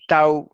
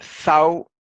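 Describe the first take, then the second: First: "Tau" with a stopped t; hard t. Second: "Zau" starting with th as in think; lisped th opening "Zau"; th sound. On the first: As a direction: say "Tau" with a clean t. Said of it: "es i-, igual". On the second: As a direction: say "Zau" with tongue between the teeth. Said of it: "en este caso la Tau". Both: Shown as a demonstration.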